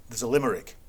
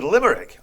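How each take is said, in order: First: Said in the usual way. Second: Higher and louder, disbelieving; incredulous echo. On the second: Retold or imitated. Retelling his shock at the limerick, incredulous echo. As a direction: throw the word back in disbelief.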